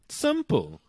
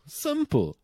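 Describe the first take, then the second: First: Said in the usual way. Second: Emphatic repeat. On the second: Shown as a demonstration.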